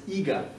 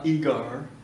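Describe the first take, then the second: First: The final R sound is silent. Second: The final R sound is pronounced. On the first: The speaker calls it right. "c'est eager" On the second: The speaker calls it wrong. "C'est pas eager, c'est plutôt américain"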